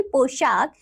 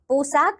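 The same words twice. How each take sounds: First: पोशाक with a clear "sh"; correct पोशाक. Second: पोशाक with "s" in place of "sh"; mispronounced पोशाक. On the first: Teacher giving children the right form, correctly pronounced. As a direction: say पोशाक carefully as "poshaak". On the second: Teacher showing children a wrong form, mispronounced. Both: Shown as a demonstration. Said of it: "नहीं".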